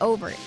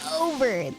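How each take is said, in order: First: The word is said casually, without careful articulation. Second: The word is said with exaggerated, crisp articulation.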